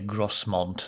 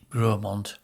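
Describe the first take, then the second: First: The s is pronounced in the middle. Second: The s is silent in the middle. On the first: The speaker calls it wrong. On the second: The speaker calls it right.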